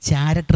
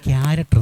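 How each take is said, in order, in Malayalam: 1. ഈ വാക്ക് ch ശബ്ദത്തിലാണ് തുടങ്ങുന്നത്. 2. ഈ വാക്ക് k ശബ്ദത്തിലാണ് തുടങ്ങുന്നത്. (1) "നമ്മളൊരിക്കലും ചാരക്ടർ എന്ന് പറയത്തില്ല" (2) "ക്യാരക്ടർ എന്നാണ് പറയുന്നത്"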